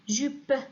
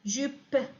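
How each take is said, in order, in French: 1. Le mot se termine brusquement sur un p nu. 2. Le mot se termine brusquement sur un p nu.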